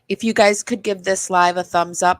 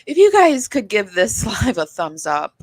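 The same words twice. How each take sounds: First: The voice sounds flat and unenthusiastic. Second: The voice sounds livelier and more upbeat.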